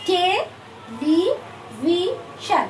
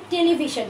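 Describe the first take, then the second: First: television in four slow, separated syllables. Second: Said in the usual way. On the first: Shown as a demonstration. Teacher showing students how to remember a spelling, television syllable by syllable. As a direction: break television into four drawn-out beats with pauses. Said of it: "syllable ভাগ করে". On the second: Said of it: "টেলিভিশনটা এখন কিভাবে মনে রাখবো".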